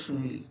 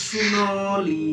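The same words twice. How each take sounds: First: Said in the usual way. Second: "শুনলি" drawn out very slowly, each vowel stretched; overdone pronunciation. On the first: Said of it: "একদম perfect বলেছো". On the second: Retold or imitated. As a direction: mimic a learner's laboured, elongated "শুনলি". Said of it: "কেরিকাচা করতে শুরু করেছো". ("শুনলি" অস্বাভাবিকভাবে টেনে টেনে বলা)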